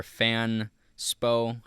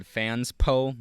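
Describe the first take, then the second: First: Fanspo said slowly as "Fan... spo"; alternative pronunciation. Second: Fanspo said as "Fans-po"; unsure pronunciation. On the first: Vlogger offers another way to say the site, Fanspo as slow "Fan-spo". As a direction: break Fanspo before the s, drawn out as "Fan-spo". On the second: Vlogger names a website he found, pronouncing Fanspo as "Fans-po". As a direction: say Fanspo split after the s, as "Fans-po". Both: Shown as a demonstration. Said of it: "however you say it".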